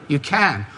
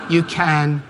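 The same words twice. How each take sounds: The two takes are said the same way.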